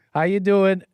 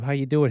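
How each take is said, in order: First: A bright, higher, louder hello to the chat; louder greeting. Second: Said in the usual way. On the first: Real, not acted. Host calling out a louder hello to his stream viewers. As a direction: call out the hello to the whole room.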